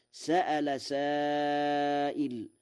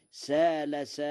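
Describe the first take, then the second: First: Slow chanted verse, sa'ala with hamza; سأل recited with the glottal stop, drawn out; Quranic recitation. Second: سال said with long a, no hamza, like qala; Warsh reading. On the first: Verse recited before Warsh variant. (تلاوة بطيئة بالهمز في سأل) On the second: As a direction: say سال as saal without the glottal stop. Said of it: "على وزن قال". (سال بلا همز على وزن قال) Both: Shown as a demonstration.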